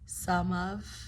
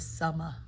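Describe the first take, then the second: First: Both words are said fully and separately. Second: The words blend into one reduced word.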